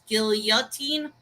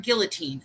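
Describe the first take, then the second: First: Put-on guillotine as GIL-yah-teen, with a Y glide; corrected pronunciation. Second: Put-on guillotine as GIL-uh-teen, L sounded; familiar pronunciation. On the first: Repeating the chat's correction back, guillotine with a Y. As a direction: put a Y after the L in guillotine, questioning. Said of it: "So you're saying it's guillotine". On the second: Telling what they've always heard, guillotine with a plain L. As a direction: say guillotine the English way, without a Y. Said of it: "I've always heard guillotine". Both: Shown as a demonstration.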